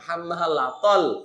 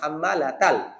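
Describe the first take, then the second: First: The final syllable sounds like 'tol'. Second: The final syllable sounds like 'tal'. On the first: The speaker calls it wrong. "হাম্মা লা তল এটা বলা যাবে না" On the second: The speaker calls it right. "বলতে হবে হাম্মা লা তাল"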